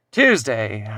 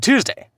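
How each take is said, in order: First: Said in the usual way. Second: High, loud punch on one word; punchline. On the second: Acted. Son lands the joke about his mom, loud punchline. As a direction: hit the joke hard, pitched way up.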